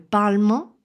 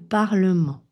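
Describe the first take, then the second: First: The middle E vowel is dropped. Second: The middle E vowel is pronounced. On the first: The speaker calls it wrong. "On ne dira pas le Parlement" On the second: The speaker calls it right. "mais le Parlement"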